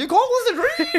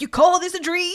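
First: Very high laughing greaser voice; hammed-up tough guy, cracking up. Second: High swaggering greaser voice; cocky tough-guy taunt, pitched up. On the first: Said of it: "he's putting on a voice". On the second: Retold or imitated. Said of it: "it's a greaser voice".

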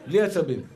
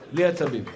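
Both takes have the same delivery.

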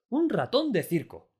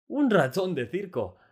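First: Much higher and louder, slow and delighted; overjoyed. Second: Much higher and louder, slow and delighted; joyful exclamation. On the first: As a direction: repeat it in pure glee. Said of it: "rebosante de alegría". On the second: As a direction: burst out with pure joy. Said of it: "exclamó Delacroix, rebosante de alegría". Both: A narrator's reading.

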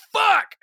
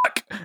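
First: Sudden high yell of pain; a short curse shouted after a burn. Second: Swallowed curse, almost no sound; a curse said under the breath after being told off; muffled curse. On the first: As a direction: yell it like you just burned your hand. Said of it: "and I just shouted". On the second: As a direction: bite it back to keep the podcast clean. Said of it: "we don't curse on this podcast". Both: Retold or imitated.

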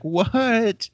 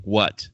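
First: High, far-off yelp of delight; happy yelling. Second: Said in the usual way. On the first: Retold or imitated. Retelling a buddy's stunned cast, happy high yelp. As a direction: shriek it like you can't believe the cast. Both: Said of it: "like, a happy yelling".

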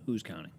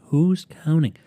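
First: Much softer, quick throwaway question; tossed off. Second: Loud, higher, punchy rhetorical question; emphatic. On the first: Podcaster brushing off how long ago it was, quiet throwaway. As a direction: drop the volume and toss it away. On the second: Podcaster brushing off how long ago it was, loud and emphatic. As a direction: throw it out loudly, pitched up. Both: Real, not acted.

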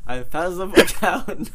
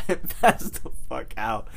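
First: Laughing, higher and louder; laughing through it. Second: Said in the usual way. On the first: Retold or imitated. Retelling how he slept through the food, laughing. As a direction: crack up on the last words.

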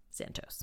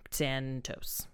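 First: Breathy whispered Santos to oneself. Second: Said in the usual way. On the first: Real, not acted. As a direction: whisper Santos under your breath as a self-correction. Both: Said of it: "got a little tongue-tied".

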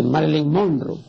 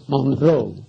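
First: "Monroe" with the stress early and the final e sounded; wrong pronunciation. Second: "Monroe" stressed on the last syllable, final e silent: monRÓ; correct pronunciation. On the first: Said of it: "no es Monroe". ("Monroe" con acento antes de la última sílaba y la e final pronunciada) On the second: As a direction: land on "-ro" and drop the e in "Monroe". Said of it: "tiene el acento prosódico en la última sílaba y la E final es muda". ("Monroe" con acento en la última sílaba y la e final muda) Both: Shown as a demonstration.

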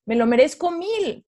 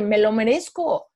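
First: "me lo merezco mil" jumps higher with a firm falling "mil"; emphatic affirmation. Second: Each word slow and deliberate: "Me lo merezco"; slow self-affirmation. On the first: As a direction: push the repeat higher and land hard on "mil". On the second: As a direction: plant "Me lo merezco" slowly and firmly. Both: Retold or imitated.

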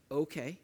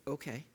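First: Said in the usual way. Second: A muttered, reluctant okay under the breath; softer grudging "Okay." under the breath; under your breath. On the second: Shown as a demonstration. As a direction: mumble "Okay." softly, grudging. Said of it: "under your breath".

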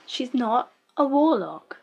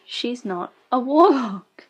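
First: Slow, stunned "She's not a warlock", leaning on "a"; flat disbelief. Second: Slow, pushed "warlock" with a falling end; louder, annoyed correction of the show; exasperated insistence. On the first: Repeats protest about show's plot. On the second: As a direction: hit "warlock" hard, fed up. Repeats protest, now exasperated. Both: Real, not acted.

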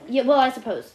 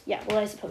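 First: Said in the usual way. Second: Soft, low redo of the line; softer repeat. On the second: Shown as a demonstration. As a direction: say it again softly, lower.

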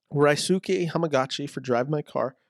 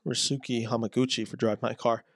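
First: Hamaguchi said as "hama-GAH-chee"; mispronounced Hamaguchi. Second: Hamaguchi said as "hama-GOO-chee"; corrected Hamaguchi. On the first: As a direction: slip to an "ah" in the third syllable of Hamaguchi. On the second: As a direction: give Hamaguchi an "oo" in the third syllable. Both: Real, not acted. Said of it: "I apologize".

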